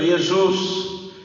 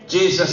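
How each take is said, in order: First: The name is pronounced the Greek way. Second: The name is pronounced the English way. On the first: "quizás en el griego" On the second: "Jesus en el inglés"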